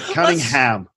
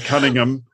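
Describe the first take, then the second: First: The name is said in an American accent. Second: The name is said in a British accent. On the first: This is how the show's own speakers say it. "but Cunningham" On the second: This is how the speaker personally says it. "I'd say Cunningham"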